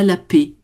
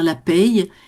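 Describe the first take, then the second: First: The word ends on a plain vowel, like paix. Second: The word ends with a y-glide after the vowel. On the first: "c'est carrément comme la paix" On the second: "on le prononce pas pareil"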